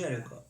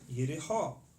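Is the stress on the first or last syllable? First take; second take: first; last. First: The stress is on the first syllable. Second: The stress is on the last syllable. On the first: This is the English pronunciation. "In English, we pronounce it with first syllable" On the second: This is the Hebrew pronunciation. "In Hebrew, last syllable"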